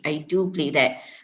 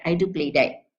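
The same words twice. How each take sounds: First: The word 'do' has a full, long vowel. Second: The word 'do' has a short, reduced vowel. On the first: "if I were to pronounce it uh, in isolation" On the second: "in rapid speech, we normally say"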